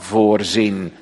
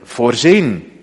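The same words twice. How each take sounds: First: The stress is on the first syllable. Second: The stress is on the second syllable. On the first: To see something in advance. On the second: To provide for everything.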